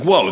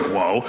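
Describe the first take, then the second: First: Short startled yelp, falling. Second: Taken aback. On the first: Simba wakes up to strangers, startled. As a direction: play a sudden mild startle. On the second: The friends answer waking Simba, taken aback. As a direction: lower echo with a rising end. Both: Retold or imitated.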